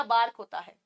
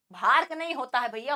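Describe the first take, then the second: First: बार्क with a plain b, no breath; correct pronunciation. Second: बार्क with an aspirated भ, as the student said it; wrong pronunciation. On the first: Teacher gives the right pronunciation, plain b. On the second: Teacher mocks the student's wrong pronunciation, breathy bh. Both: Shown as a demonstration.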